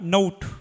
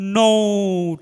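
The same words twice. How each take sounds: First: The vowel is only slightly lengthened. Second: The vowel is dragged out very long. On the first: The speaker calls it right. "হালকা টান হবে নোট" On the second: The speaker calls it wrong. "এভাবে টান দিয়েন না, এটা ভুল হয়ে যাবে"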